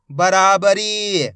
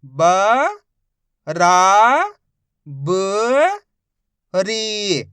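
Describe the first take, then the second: First: बराबरी said as one smooth word, slowly; blended reading. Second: Each syllable stretched very slowly; slow sounding-out for a child; drawn-out syllables. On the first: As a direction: join it all together. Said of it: "मिला के पढ़ देंगे". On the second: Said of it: "एक एक अक्षर का उच्चारण करके". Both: Shown as a demonstration.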